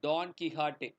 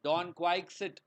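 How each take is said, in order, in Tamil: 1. x ஐ h ஒலியாக சொல்கிறோம். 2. x ஐ ks ஒலியாக சொல்கிறோம். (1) "it has to be pronounced as" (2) "அப்படின்னு கூட நீங்க உங்களோட எம்ஏல ப்ரொனன்ஸ் பண்ணிருக்கலாம்"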